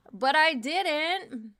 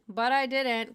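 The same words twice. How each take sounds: First: Slow and louder; slow emphatic. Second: Said in the usual way. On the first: Acted. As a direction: lean on each word slowly. Repeated right after.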